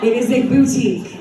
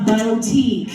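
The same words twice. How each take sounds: First: "boutique" said as "boo-tique"; correct pronunciation. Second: "boutique" said as "bow-tique"; the wrong "bow-tique", stressing the bow; Utah pronunciation. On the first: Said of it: "it is not a boutique". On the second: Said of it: "it is not". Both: Shown as a demonstration.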